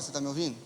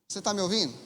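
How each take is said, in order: First: The question is spoken softly, much quieter. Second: The question is spoken at normal volume.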